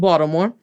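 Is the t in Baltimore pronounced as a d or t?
d. The t is pronounced like a d.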